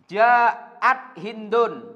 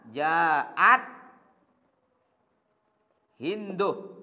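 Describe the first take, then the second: First: The name ends with a final n sound. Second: The name ends in a plain vowel, no n. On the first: The speaker calls it wrong. "Boleh kita baca di tanwin" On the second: The speaker calls it right. "Ini lebih baik"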